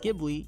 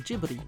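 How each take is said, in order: First: The word begins with a hard G sound. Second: The word begins with a soft G sound. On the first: This is the original Italian word. "The original word Ghibli is pronounced with a hard G" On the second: This is the studio's version of the name. "a soft G used by the studio"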